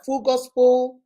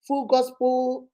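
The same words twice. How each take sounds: First: Said in the usual way. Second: Full Gospel spelled out slowly, each word weighted; slow, deliberate Full Gospel. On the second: Shown as a demonstration. Preacher repeats the fellowship's name for the congregation, slow and stressed. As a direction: stretch out Full Gospel so they catch the name.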